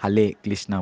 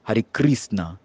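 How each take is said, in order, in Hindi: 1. r ध्वनियों की जगह l ध्वनियाँ बोली जाती हैं। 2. r ध्वनियाँ मज़बूत और बहुत लुढ़की हुई होती हैं। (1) "चीन का भक्त लोग जो है उनको र नहीं आते और ल आते" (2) "रशियन लोग हैं उसका र बहुत काफ़ी स्ट्रांग है"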